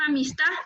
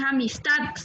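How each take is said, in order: First: "amistad" as "amistá", no final d; "amistad" ending on an open a; mispronounced amistad. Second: "amistad" with a firm final d; careful "amistad", ending -tad; correct amistad. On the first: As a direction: drop the d from "amistad". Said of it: "No es amistad". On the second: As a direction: sound the d closing "amistad". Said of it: "con D al final". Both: Shown as a demonstration.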